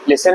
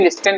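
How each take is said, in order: First: No t sound is pronounced in the middle. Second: A t sound is pronounced in the middle. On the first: The speaker calls it right. "But ये लिसन है" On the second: The speaker calls it wrong. "लिस्टन लिस्टन बहुत लोग बोल सकते हैं"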